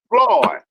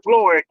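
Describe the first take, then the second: First: The vowel sounds like aw, rhyming with Ward. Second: The vowel is the usual oy sound. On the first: Locals say the name this way. The speaker calls it right. "We call him Floyd. It's just Floyd" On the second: Outsiders say the name this way. The speaker calls it wrong.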